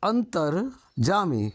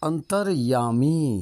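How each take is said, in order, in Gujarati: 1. ત્રીજો શબ્દાંશ 'j' અવાજથી શરૂ થાય છે. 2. ત્રીજો શબ્દાંશ 'y' અવાજથી શરૂ થાય છે. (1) "તમે જામી બોલ્યા" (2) "અસલમાં અંતરયામી બોલાય"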